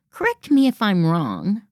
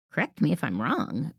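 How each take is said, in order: First: "Correct me if I'm wrong" lifted up at the end like a question; tentative, hedging rise on "wrong"; unsure rising tone. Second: Said in the usual way. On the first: Shown as a demonstration. Coach showing the weak habit: rising, hedging tone. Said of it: "you want to watch your intonation". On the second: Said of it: "tendency to lift our voice at the end".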